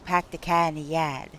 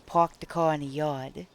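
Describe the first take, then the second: First: It is spoken in a Boston accent. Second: It is spoken in a New York accent. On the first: "if you're from Boston, you say" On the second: "if you're from the city or whatever, you say"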